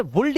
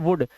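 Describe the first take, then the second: First: वुल्ड with the l sounded; wrong pronunciation. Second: वुड with silent l; correct pronunciation. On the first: Teacher warning against misreading, वुल्ड with l. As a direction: put an audible l before the d in वुल्ड. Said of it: "नहीं पढ़ते हैं". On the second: Teacher reading would aloud, वुड without l. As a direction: go from the short u straight to d in वुड. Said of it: "इसे पढ़ते हैं वुड". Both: Shown as a demonstration.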